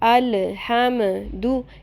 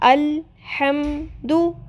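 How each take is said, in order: First: The L sound is moved with a vowel. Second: The L sound is held without a vowel. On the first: The speaker calls it wrong. "इनको हिलाना नहीं है। अल्हम्दु ये नहीं करना।" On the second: The speaker calls it right. "अल इसको अपनी जगह पे आपने फिक्स कर लेना है, हिलाना नहीं है।"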